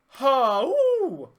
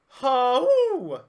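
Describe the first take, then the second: The two takes are said the same way.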